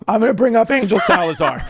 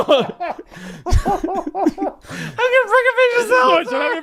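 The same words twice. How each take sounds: First: High, hammed-up announcer voice; mock announcer intro. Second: Very high, slow, laughing mock MC call; laughing through it. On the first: Comic retelling his own stage intro in a mock MC voice. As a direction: boom it out like a club MC. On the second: Comic redoing his MC intro, high and laughing. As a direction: stretch it out, cracking up.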